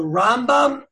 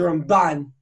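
First: Rambam with RAM stressed; stress on first syllable. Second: Ramban with BAN stressed; stress on second syllable. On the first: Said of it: "you put the accent on the first syllable". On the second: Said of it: "you put the accent on the second syllable". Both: Shown as a demonstration.

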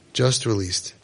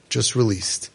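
No difference in how they are said.

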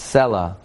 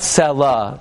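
First: "Selah" with stress on SE, falling away; correct stress. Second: "Selah" with the stress on the final LAH; wrong stress. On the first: Rabbi gives the right way, "Selah" stressed on SE. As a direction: say "Selah" low, front syllable stressed. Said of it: "it's Selah". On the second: Rabbi shows the wrong way, "Selah" stressed on LAH. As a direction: drag out and punch the end of "Selah". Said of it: "It's not Selah". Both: Shown as a demonstration.

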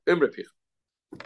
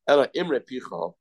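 First: "Imrei" stretched slowly and pressed as the key word; stressed repeat. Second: Said in the usual way. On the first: Shown as a demonstration. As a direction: lean into "Imrei" slowly to drive the point home. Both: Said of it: "Don't say Maima Picha".

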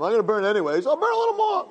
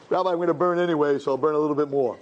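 First: Rising to a very high, sneering voice; mocking evil inclination. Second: Lightly voiced sinner. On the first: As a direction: jeer the excuse like a taunting tempter. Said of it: "Yetzer Hara says it all the time". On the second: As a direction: shrug it off to the rabbi, only lightly acted. The sinner answers the satan.

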